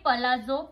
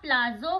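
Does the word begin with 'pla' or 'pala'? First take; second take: pala; pla. First: The word begins 'pala' with a vowel after p. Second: The word begins 'pla' with no vowel after p. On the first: This is the real pronunciation. The speaker calls it right. "याचं खरं pronunciation आहे पलाझो" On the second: This is how people commonly say it. The speaker calls it wrong. "आपण बरेचदा याला प्लाझो बोलतो"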